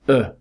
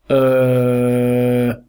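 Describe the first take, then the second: First: The vowel sound is very short. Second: The vowel sound is held long. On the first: "the schwa is just a short version of that sound" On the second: "This sound is not the schwa, it's a longer sound"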